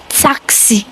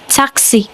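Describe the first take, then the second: No difference in how they are said.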